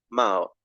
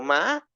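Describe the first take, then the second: First: The pitch is low. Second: The pitch is high. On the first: "me voy a uno bajo, a uno más grave" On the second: "me voy a uno agudo"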